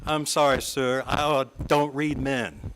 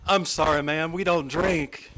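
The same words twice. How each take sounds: First: Affected Southern stage voice. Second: Proud, deliberate refusal; father's loud announcement. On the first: Shown as a demonstration. Speaker telling colleagues she reads no men, in a light Southern stage voice. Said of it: "in a somewhat affected stage voice, and maybe a slightly revived Southern accent". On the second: Retold or imitated. Retelling father at the cocktail party, mildly loud. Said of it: "loudly announced to the international community".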